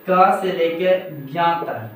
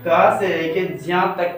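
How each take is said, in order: First: "ज्ञा" said as "gya", slowly; ज्ञा with g sound. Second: "ज्या" said as "jya"; ज्या with j sound. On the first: Teacher listing consonants up to ज्ञा, "ज्ञा" pronounced gya. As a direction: say "ज्ञा" starting with a hard g, as gya. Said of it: "ज्ञा नहीं, इसको ज्या बोला जाता है". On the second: Teacher correcting the last consonant, "ज्या" pronounced jya. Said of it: "इसको ज्या बोला जाता है". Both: Shown as a demonstration.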